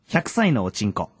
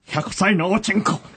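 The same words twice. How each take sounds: First: It is said in a plain, ordinary way. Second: It is said with very high energy.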